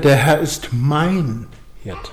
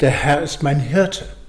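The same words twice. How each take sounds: First: The stress falls on the word mein. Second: The stress falls on the word Hirte. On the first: The focus is on a personal relationship. "dass er mein Herr ist" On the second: The focus is on the role of shepherd. "und es geht um den Hirten"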